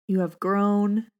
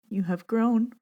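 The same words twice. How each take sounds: First: Composed again after laughing off tears; steady, tender retake; recovered, gentle meditation read. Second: Choked up on the word; tears catching her voice; moved, barely holding it together; voice breaking. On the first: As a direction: say it slowly and calmly. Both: Real, not acted. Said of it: "Oh, gets me every time".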